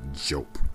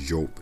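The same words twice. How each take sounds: First: The name begins with a J sound. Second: The name begins with a Y sound. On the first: The speaker calls it wrong. "not Jope" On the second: The speaker calls it right. "Like Y, Jope"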